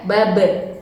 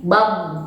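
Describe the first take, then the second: First: "babe" with the b released and bouncing; bounced b at the end of "babe". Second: "bab" with the final b held closed, no bounce; unreleased final b in "bab". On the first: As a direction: let the final b pop open in "babe". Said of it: "Kalau ba itu mantul ya". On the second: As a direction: clamp the lips shut on the end of "bab". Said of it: "ya harus ditahan". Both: Shown as a demonstration.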